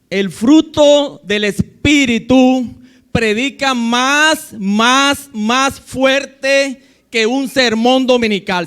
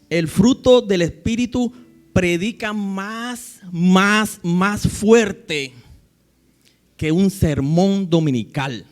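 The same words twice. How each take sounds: First: It is said in a loud, strong voice. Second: It is said in a soft, quiet voice. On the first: "Lo digo ahora de una forma más fuerte" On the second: "colocar la voz suavecita"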